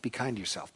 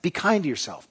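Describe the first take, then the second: First: Soft echo. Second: Said in the usual way. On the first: Shown as a demonstration. Repeating the refrain, much softer.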